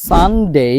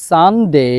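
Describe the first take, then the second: The two takes are said the same way.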